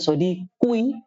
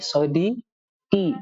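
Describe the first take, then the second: First: The word ends with an 'oo' before 'ee'. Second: The word ends with a plain 'ee' sound. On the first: This is the underlying original form. The speaker calls it wrong. "Bukan sodikui" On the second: This is the form actually pronounced. The speaker calls it right. "tapi sodiki"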